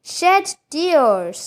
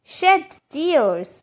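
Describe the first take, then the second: No difference in how they are said.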